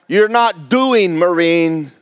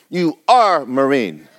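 First: Said in the usual way. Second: Slow, leaning hard on "are"; stress on are. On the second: Shown as a demonstration. Preacher to congregation, slow stress on "are". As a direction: press "are" in "you are Marine".

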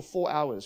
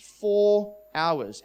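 First: Said in the usual way. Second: "Four" drawn out and louder, then falling; stress on FOUR. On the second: Real, not acted. Pastor tells friends how long it went on, stress on "Four". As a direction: hit "Four" hard and hold it.

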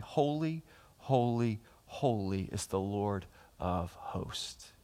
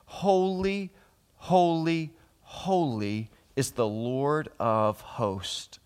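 First: Hushed reverent repetition. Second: High, drawn-out call settling to usual pitch; angels calling out. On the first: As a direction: let each "holy" sink into a hush. The same angels' call, repeated softly. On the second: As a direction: call each "holy" slowly and solemnly. Angels' call quoted from Scripture. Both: Acted.

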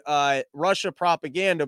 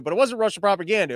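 First: Said in the usual way. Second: Wasn't hit hard and quick, the rest rushed; stress on wasn't. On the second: Shown as a demonstration. Correcting the headline, stress on wasn't. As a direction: lean on wasn't, then rush through.

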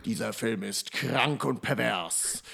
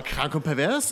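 First: Low, slow, dramatic trailer announcer; horror trailer voice. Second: Put-on eager, loud, thrilled kid; a fourteen-year-old hyped for gore; excited teen. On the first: Retold or imitated. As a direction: read it like an ominous movie trailer. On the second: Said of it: "eure kleinen vierzehnjährigen Gehirne sagen".

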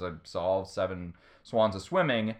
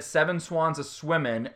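First: Said in the usual way. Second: "swimming" said as "swimmin'"; dropped final G. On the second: Retold or imitated. Retelling a contestant's losing answer, "swimming" without its final G. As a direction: say "swimming" with a plain N at the end, no G. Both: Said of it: "didn't say the G at the end".

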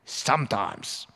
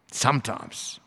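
First: Wry aside. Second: Said in the usual way. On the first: Shown as a demonstration.

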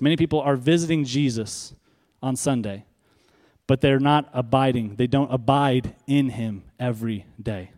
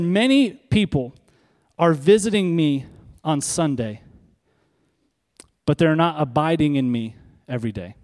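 First: Said in the usual way. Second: Lightly voiced divine message, deliberate; voicing God's words. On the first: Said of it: "let me say it like this". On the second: A touch of God's voice, preacher quoting what God told him. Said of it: "He said".

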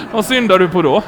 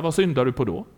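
First: Loud retold retort; emphatic punchline. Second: Said in the usual way. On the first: Preacher repeats pastor's retort after the laugh, loud and emphatic. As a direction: throw the question out again, louder. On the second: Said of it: "så sa han så här".

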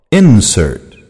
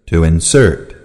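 First: Insert stressed on the first syllable, IN-sert. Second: Insert stressed on the second syllable, in-SERT. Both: Shown as a demonstration. Noun and verb stress drill.

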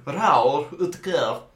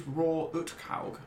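First: "Raoul Uthaug" said very slowly and carefully; "Raoul Uthaug" drawn out in a put-on accent; corrected pronunciation. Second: "Roar Uthaug" said as plain English "roar", slow; "Roar Uthaug" read out hesitantly, letter by letter; wrong pronunciation. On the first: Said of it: "yeah, that's better". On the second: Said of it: "You might not be pronouncing it right". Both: Real, not acted.

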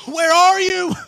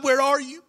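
First: Where are you cried out higher and louder; anguished cry out. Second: Pleading. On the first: Jesus crying out to God in agony, loud and pleading. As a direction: cry it up to heaven, louder than the first ask. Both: Acted. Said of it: "he was in such agony".

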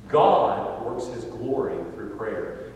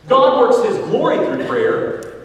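First: Slow, measured and settled; calm restatement. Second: Loud, high, slowed proclamation; preached repetition. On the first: Preacher summing up the story for listeners, calm and slow. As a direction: let the point land gently. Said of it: "returns to the point". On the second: Preacher hammering his point to the church, loud and slow. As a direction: belt it out to the back pew. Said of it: "repeats the point". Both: Shown as a demonstration.

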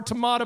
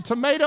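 First: "tomato" said as tuh-MAH-to; variant pronunciation. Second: "Tomato" said as tuh-MAY-to; long a in the middle of "Tomato"; variant pronunciation. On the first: Pastor joking about two ways to say it, "tomato" as tuh-MAH-to. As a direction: open ah in the middle of "tomato". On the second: Pastor joking about two ways to say it, "Tomato" as tuh-MAY-to. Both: Shown as a demonstration. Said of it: "How do you say it?".

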